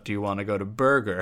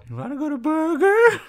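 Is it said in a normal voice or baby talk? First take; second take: normal voice; baby talk. First: It is said in a normal, plain voice. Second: It is said in baby talk, like to a pet.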